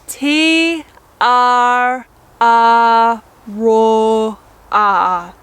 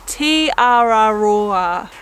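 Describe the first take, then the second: First: The name is said slowly, syllable by syllable. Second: The name is said quickly, as in normal speech. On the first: "just say it a little bit slowly" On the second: "say it pretty quickly, just like you would in a sentence"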